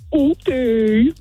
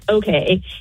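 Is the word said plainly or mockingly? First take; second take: mockingly; plainly. First: It is said in a mocking, disbelieving voice. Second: It is said plainly and neutrally.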